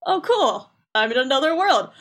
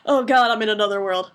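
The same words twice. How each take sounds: First: Mock delight. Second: Sinking mock dread; mock dismay. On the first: Sora waking up in another world, mock delight. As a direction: play at being thrilled, pitch jumping on "cool". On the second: Sora realizing he is in another world, mock dismay. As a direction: let the pitch slide down in pretend dismay. Retold waking, dismay sets in.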